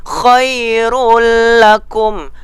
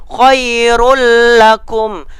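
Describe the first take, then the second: The two takes are said the same way.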